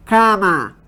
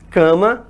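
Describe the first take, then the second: First: "Cama" with open oral "ká", falling; oral vowel demo. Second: "Cama" with nasal "kã", rising at the end; nasalized demo. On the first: Teacher contrasts the word for students, oral vowel demo. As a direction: say "Cama" as "ká-ma", no nasal in the A. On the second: Teacher repeats the word for students to test, nasalized demo. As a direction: say "Cama" as "kã-ma", left hanging upward. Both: Shown as a demonstration. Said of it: "Há a possibilidade de nasalizar".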